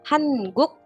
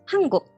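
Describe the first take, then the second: First: Each syllable is said separately, with a plain n. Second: Said quickly, the n becomes ng before g. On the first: The word is being spelled out syllable by syllable. "mengeja si katanya. Hanguk gitu" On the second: The word is read quickly as in normal speech. "Kalau dibaca cepet hangguk"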